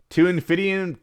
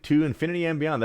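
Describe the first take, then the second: First: A lightly voiced heroic space ranger, pitched up; a hint of Buzz Lightyear's bold catchphrase, cut off; playful nod to a viewer's request, half-done; Buzz Lightyear impression. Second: Lightly voiced heroic space ranger line, a bit higher; a hint of Buzz Lightyear's bold catchphrase, said in full; mild mock heroics for the chat; Buzz Lightyear impression. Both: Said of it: "Buzz Lightyear, thank you".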